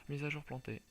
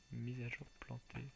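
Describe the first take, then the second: First: Loud, flat system notice; loud announcement. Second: Said in the usual way. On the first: Retold or imitated. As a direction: blurt it like an error message. Game announces crash.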